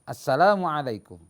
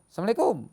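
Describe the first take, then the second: First: The greeting is said with every sound clear. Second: The greeting is mumbled and its sounds are unclear. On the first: The speaker calls it right. "maka maksudnya" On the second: The speaker calls it wrong. "apa? Nggak jelas kan?"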